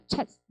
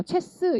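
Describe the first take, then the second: First: 체스 as one syllable, strong "che", faint S; English-style CHESS. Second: 체스 in two syllables with a full 스; higher, sounded-out 체스; wrong Korean-style CHESS. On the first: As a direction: stress the front of 체스 and barely release the S. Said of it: "이게 아니라 체스". (체스의 앞에 강세, 스는 약하게) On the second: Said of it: "이게 아니라". (체스를 두 음절로 또박또박) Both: Shown as a demonstration.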